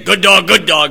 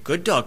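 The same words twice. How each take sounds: First: It is said in a harsh, threatening tone. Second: It is said in a gentle, soothing tone. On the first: The dog feels threatened and cowers. "and the thing will cower down" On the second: The dog feels welcome and comes over. "you can say very gently"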